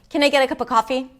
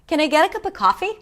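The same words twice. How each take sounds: First: Low, flat pitch with little variation. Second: Higher, varied pitch with a softer voice. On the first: The speaker sounds unfriendly. The speaker calls it wrong. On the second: The speaker is being kind. The speaker calls it right. "I use more pitch, my voice is a little softer"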